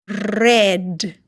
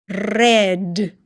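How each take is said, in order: No difference in how they are said.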